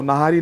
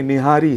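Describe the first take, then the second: First: नहारी with a plain "na" first syllable; common wrong form. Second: निहारी with a clear "ni" first syllable and a falling close; correct Urdu form. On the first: Guest showing the popular wrong name नहारी with "na". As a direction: say नहारी as most people mispronounce it. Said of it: "जिसे बहुत से लोग नहारी कहते हैं". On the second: Guest insisting the dish is properly called निहारी, "ni" first syllable. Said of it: "वो नहारी नहीं है". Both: Shown as a demonstration.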